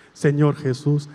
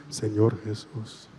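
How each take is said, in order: First: Said in the usual way. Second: Much lower and softer, slow; hushed echo. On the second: Shown as a demonstration. Priest repeats the prayer line as the girl's soft reply. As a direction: breathe the answer quietly. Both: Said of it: "Empezamos otra vez".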